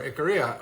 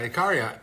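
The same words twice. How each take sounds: First: Ikaria said ih-KER-ee-a, R-coloured middle vowel; second pronunciation. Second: Ikaria said ih-KAH-ree-a, open AH in the middle; first pronunciation. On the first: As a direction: Ikaria with an American ER sound in the middle. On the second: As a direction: Ikaria with a broad AH on the second syllable. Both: Shown as a demonstration. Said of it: "or however you say it".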